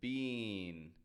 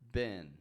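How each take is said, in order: First: The vowel is full and long. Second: The vowel is short, soft and quiet. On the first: The speaker calls it wrong. "we don't pronounce it with a full been" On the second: The speaker calls it right. "soften that vowel in the middle to get a quick and quiet been"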